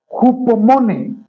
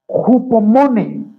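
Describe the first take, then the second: No difference in how they are said.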